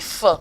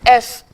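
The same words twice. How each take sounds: First: It is said as the bare consonant sound. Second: It is said as the French letter name. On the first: The speaker calls it right. "je dis" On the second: The speaker calls it wrong. "au lieu de dire"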